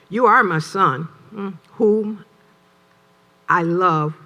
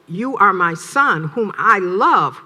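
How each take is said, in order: First: It is said hesitantly, in a doubtful tone. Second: It is said warmly, in an approving tone. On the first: The speaker is questioning or disapproving. "Now it's a negative" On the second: The speaker is genuinely affirming and pleased. "that's a positive"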